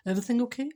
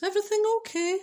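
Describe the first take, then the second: First: Said in the usual way. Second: Nervous squeaky high pitch; timid high voice. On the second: Retold or imitated. Husband nervously asking his wife, high timid voice. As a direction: ask it in a small high-pitched voice. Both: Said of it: "I don't know if his voice had gone like that".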